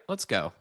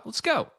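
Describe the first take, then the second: First: Said in the usual way. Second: High, pumped rallying cry; excited. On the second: Real, not acted. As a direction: cheer yourself on. Hyping up the trade.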